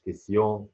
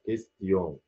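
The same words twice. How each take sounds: First: كيسيون with the t dropped; كيسيون with only s before the -yon; wrong pronunciation. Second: كيستيون with a plain t after the s; كيستيون, French s-t-yon ending; t pronounced. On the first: Teacher shows learners the mistake, t left silent. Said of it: "مش كيسيون". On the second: Teacher corrects learners, t sounded normally. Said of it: "أنطق الت هنا". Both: Shown as a demonstration.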